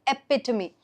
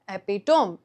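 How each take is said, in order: First: The word is said in its standard pronunciation. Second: The word is sounded out letter by letter. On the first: The speaker calls it right. "the correct pronunciation is epitome" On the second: The speaker calls it wrong. "a lot of people while reading this will read this as epitome"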